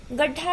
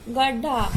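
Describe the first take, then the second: First: Said in the usual way. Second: "गड्ढा" said as gadda, aspiration dropped; incorrect pronunciation. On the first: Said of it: "गड्ढा है शुद्ध शब्द". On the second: Shown as a demonstration. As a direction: take the breath out of the ḍh in "गड्ढा". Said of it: "इसका अशुद्ध है". ("गड्ढा" में ढ को ड बोलें)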